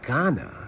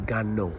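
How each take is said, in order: First: The word ends in a plain 'ah' sound. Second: The word ends with an added 'oh' sound. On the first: "Instead of Ghana" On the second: "they say Gano"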